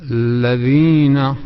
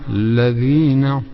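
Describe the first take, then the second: The two takes are said the same way.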